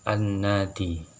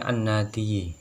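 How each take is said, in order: First: The word ends on a plain i sound. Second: The word ends with an added yi syllable. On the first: This is the form actually pronounced. "maka menjadi lafadz an-nadi" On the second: This is the underlying full form. "harusnya an-nadiyi"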